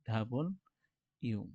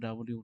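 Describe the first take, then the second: First: It is said as two clear words 'double you'. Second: It is said as a short blended 'dabliu'. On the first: The speaker calls it right. "উচ্চারণ হবে ডাবল ইউ" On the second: The speaker calls it wrong. "ডাব্লিউ বলি কিন্তু ডাব্লিউ না"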